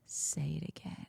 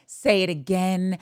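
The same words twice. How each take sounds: First: Low, hushed imitation of a suitor; seductive whisper. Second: Slow, fully voiced repeat of the line; savoured imitation. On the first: Bachelor to contestant after the kiss, imitated whisper. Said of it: "And then he says to her". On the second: Fan replaying the bachelor's line, savoured slowly. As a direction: draw it out, relishing each word.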